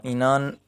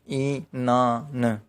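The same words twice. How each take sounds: First: Said in the usual way. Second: Inan said very slowly, in-na-n, syllable by syllable; very slow demo of Inan; slow syllable count. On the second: Shown as a demonstration. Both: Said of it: "यानी तीन syllable हो गए".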